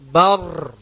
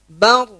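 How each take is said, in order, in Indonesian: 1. Huruf r di akhir digetarkan berkali-kali. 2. Huruf r di akhir hanya digetarkan sebentar. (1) "Itu sudah berapa kali takrirnya, getarannya itu. Sudah menganakkan huruf ro" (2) "Cukup dua kali getaran saja"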